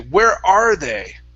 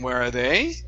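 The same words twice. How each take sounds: First: The middle word is stressed, not the last. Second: The last word is stressed, rising at the end. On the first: The speaker calls it right. "we're actually emphasizing that word are" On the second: The speaker calls it wrong. "we don't want to stress they. Okay, and saying where are they and raising at the end"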